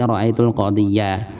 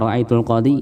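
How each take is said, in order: First: The last word ends in an iya sound. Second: The last word ends in a plain i sound. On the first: The speaker calls it right. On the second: The speaker calls it wrong.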